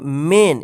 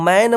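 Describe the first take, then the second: First: The vowel sounds like the one in 'men'. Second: The vowel sounds like the one in 'man'. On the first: The speaker calls it right. "इसको क्या पढ़ेंगे? मेन।" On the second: The speaker calls it wrong. "इसको मैन मत पढ़िएगा"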